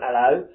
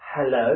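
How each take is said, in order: First: The word begins without the h sound. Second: The word begins with a clear h sound. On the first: This is how a London Essex speaker says it. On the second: This is how people in America say it.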